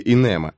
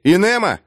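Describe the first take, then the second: First: Said in the usual way. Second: Calling out. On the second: Acted. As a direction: call Инема across the room. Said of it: "Смирт окликнул".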